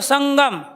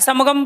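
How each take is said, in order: First: The nasal before g sounds like ng. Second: The nasal before g sounds like m. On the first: The speaker calls it right. "यानी कि गै का उच्चारण कर रहे हो आप" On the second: The speaker calls it wrong. "समगम बोलते हो"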